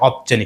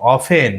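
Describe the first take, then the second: First: The t sound is clearly pronounced. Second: The t sound is silent. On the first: The speaker calls it wrong. "Not অফটেন" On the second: The speaker calls it right. "এখানে বলতে হবে অফেন"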